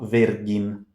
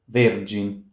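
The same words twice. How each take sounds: First: The g is hard, as in go. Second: The g is soft, like j. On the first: The speaker calls it wrong. "and not virgin" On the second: The speaker calls it right. "So it's virgin"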